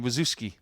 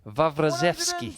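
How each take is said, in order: First: The surname is said in a simpler, easier form. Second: The surname is said in its fuller, harder form. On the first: This is how most people say it. "everybody was saying Wazuski. It's easier to say" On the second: This is how the family says it. "That's how she pronounced it"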